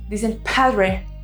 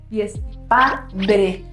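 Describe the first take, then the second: First: The syllables are divided the English way. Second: The syllables are divided the Spanish way. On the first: The speaker calls it wrong. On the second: The speaker calls it right. "y es"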